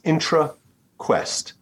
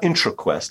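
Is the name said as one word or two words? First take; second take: two words; one word. First: It is split into two separate words. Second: It is run together as one word. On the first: The speaker calls it right. "it's two words" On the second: The speaker calls it wrong. "It's not IntraQuest"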